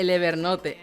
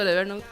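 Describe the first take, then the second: First: Evernote is pronounced with Spanish sounds. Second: Evernote is pronounced more like English. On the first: "a la española" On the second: "lo digo un poco más culto"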